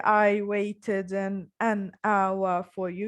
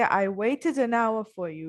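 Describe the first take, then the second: First: The words are said separately with a break. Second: The words are linked together smoothly. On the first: The speaker calls it wrong. "So not only" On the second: The speaker calls it right. "you connect it"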